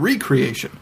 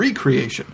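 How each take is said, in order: First: It is said as re- plus creation. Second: It is said as re- plus creation.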